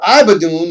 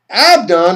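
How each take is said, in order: First: The name is said as three syllables, Ibadun. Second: The name is said as two syllables, Abdon.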